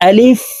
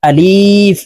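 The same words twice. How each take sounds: First: The word is said quickly without stretching. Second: The vowel is drawn out long. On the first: The speaker calls it right. "টেনে পড়া যাবে না, তাড়াতাড়ি করে উচ্চারণ করতে হবে" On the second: The speaker calls it wrong. "এইভাবে টেনে পড়ে থাকি"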